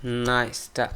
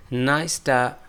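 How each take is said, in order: Both takes have the same delivery.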